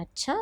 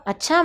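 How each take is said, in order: First: Said in the usual way. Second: A mild surprised "अच्छा?" with a lifting end; surprised question. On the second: Shown as a demonstration. Therapist to mother, a mild surprised rising "अच्छा?". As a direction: ask "अच्छा?" as if a little taken aback. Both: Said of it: "मैंने यूँ पूछा।".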